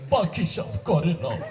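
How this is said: It is said in a weeping, tearful voice. "ও কানতে, কানতে কয়"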